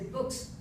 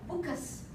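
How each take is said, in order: First: The consonant blend is said without an added vowel. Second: An extra vowel splits the consonant blend. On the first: This is how native speakers say it. The speaker calls it right. "like we say books" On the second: This is how learners say it. The speaker calls it wrong. "they'll say bookus"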